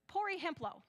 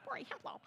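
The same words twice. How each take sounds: First: "Pori Hemplo" in a broad gringo Spanish accent, pitched up; self-mocking American take on Spanish "Pori Hemplo"; West Michigan Spanish. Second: "Pori Hemplo" breathed out high through a laugh in that American Spanish accent; amused, whispered American Spanish "Pori Hemplo"; laughing repeat. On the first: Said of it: "West Michigan Spanish". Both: Real, not acted.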